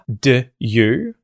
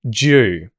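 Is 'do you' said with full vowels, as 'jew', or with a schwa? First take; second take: schwa; jew. First: The first vowel is reduced to a schwa. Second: The d and y merge into one 'j' sound. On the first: "we turn the oo vowel sound in the word do into a schwa" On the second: "The d and the ye merge, and you're going to hear J"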